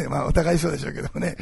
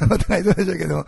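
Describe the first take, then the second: First: Said in the usual way. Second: Laughing as he repeats お互いそうでしょうけども; chuckling through お互いそうでしょうけども, high and bright; laughing aside. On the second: Real, not acted. Pastor teasing fellow pastors, laughing.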